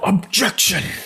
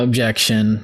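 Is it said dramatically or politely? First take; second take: dramatically; politely. First: It is said loudly and dramatically. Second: It is said calmly and politely.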